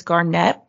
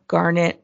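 First: "Garnett" with the second syllable stressed; French-style "Garnett", ending on a stressed NET; fancy pronunciation. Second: Said in the usual way. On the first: Shown as a demonstration. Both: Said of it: "however you wanna say it".

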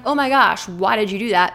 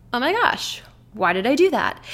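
First: Exasperated, accusing self-talk; mock reproach to oneself; self-scolding. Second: Higher, curious wondering; an outsider gently wondering why; inquisitive self-talk. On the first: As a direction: tell yourself off in dismay. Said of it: "So instead of being like". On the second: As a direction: puzzle over it without blame. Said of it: "almost inquisitive about it". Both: Shown as a demonstration.

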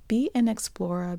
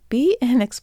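First: Said in the usual way. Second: Loud, broad Boston accent slipping out. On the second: Real, not acted. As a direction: let the Boston accent come through. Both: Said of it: "there's my Boston accent coming out".

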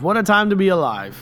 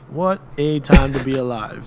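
First: Excited. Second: Said in the usual way. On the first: Pretend. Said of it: "repeated catchphrase, first take raised". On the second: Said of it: "second take, flat".

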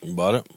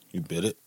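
First: "bought" with open vowel /bɑt/, asking back; pron. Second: "bit" with short /ɪ/ vowel, quieter; pron. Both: Real, not acted. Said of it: "Bit? Bought?".

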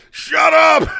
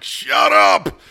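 First: A mortified mom's high shriek. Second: A louder, sharper shut up from the embarrassed mom; mom hushing her. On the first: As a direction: shut up yelled much higher and louder. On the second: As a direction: hush the kid fast, half-loud. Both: Retold or imitated. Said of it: "her mom's like".

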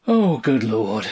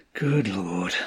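First: Slow, drawn-out groan falling away; exasperated groan. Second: Low-key despairing groan; subdued groan. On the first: Husband despairs at wife's answer, groaning. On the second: Husband pounds table softly, groaning in quiet despair. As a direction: groan it under control, sinking down. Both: A narrator's reading. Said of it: "he groaned".

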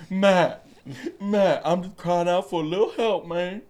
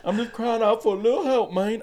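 First: High, loud, mushy toothless whine; toothless crackhead plea. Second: Much higher, laughing toothless whine; toothless crackhead again. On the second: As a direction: overdo the toothless plea, cracking up. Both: Retold or imitated. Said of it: "he ain't got a tooth".

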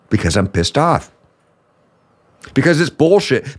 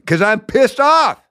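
First: Pissed off, contained. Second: High, drawn-out angry outburst; irate high-pitched answer to a critic; pissed-off yell. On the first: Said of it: "you yell so much". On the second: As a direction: snap back high and stretched out, fed up. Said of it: "What are you yelling". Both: Acted.

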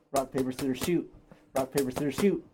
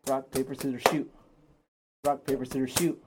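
The two takes are said the same way.

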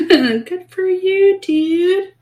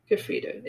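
First: Much higher, slow, sing-song praise; mock congratulation. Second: Fast, laughing whispered sneer; sarcastic whisper. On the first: Ridiculing the hero's minor wound, high mock praise. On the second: Mocking the vain hero to her co-host, whispered sarcasm. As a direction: toss it off under your breath. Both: Real, not acted.

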